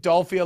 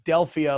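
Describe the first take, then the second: First: The vowel sounds like the 'o' in doll. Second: The vowel sounds like the 'e' in dell. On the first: "you're saying Dolphia like Dolph Lundgren" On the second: "most people pronounce it Delphia like the like the Oracle of Delphi"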